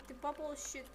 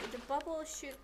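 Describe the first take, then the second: No difference in how they are said.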